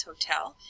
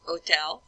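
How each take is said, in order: First: Said in the usual way. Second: "hôtel" said the French way, silent h; French "oh-TELL", no h sound; French pronunciation. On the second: Shown as a demonstration. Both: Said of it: "that means hotel".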